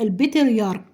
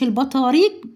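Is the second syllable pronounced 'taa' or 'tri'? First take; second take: tri; taa. First: The word is said as 'al-batriyark' with 'tri'. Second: The word is said as 'al-bataarik' with a long vowel. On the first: The speaker calls it right. "لا البطريرك، عشان تنطقوا الاسم صح" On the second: The speaker calls it wrong. "مش البطاريق بن يمين"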